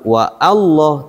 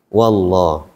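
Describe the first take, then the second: First: A glottal catch separates wa from Allah. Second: Wa runs straight into Allah without a catch. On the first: The speaker calls it wrong. "bukan wa Allah" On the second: The speaker calls it right. "tapi wallah"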